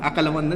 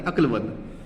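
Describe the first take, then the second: First: "अक्लमंद" wrongly split as "अकल-मंद" with an extra vowel after k; "अक्लमंद" mispronounced with a vowel between k and l; wrong pronunciation. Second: "अक्लमंद" with k and l joined in one cluster, no vowel between; "अक्लमंद" correctly, akl-mand; correct pronunciation. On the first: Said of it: "ध्यान रखना, अक्लमंद, अक्लमंद नहीं". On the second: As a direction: say "अक्लमंद" the right way, "अक्ल" as one syllable. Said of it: "ध्यान रखना, अक्लमंद". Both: Shown as a demonstration.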